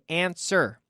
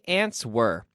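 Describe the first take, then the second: First: The W sound is silent in the middle. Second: The W sound is pronounced in the middle. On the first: The speaker calls it right. "we say answer. The W is silent" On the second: The speaker calls it wrong. "here we do not say"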